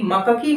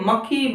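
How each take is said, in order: First: Second-syllable vowel added in मक्खी, after क; full क syllable. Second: Said in the usual way. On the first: Shown as a demonstration. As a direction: say मक्खी as "ma-ka-khee". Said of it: "क पूरा कर दिया". (मक्खी में क को पूरा बोलते हुए) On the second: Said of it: "मक्खी मक्खी में बदल जाएगी".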